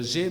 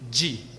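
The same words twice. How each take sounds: First: The letter is named the French way. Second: The letter is named the English way. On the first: "En français, c'est la lettre G" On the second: "mais en anglais, c'est G"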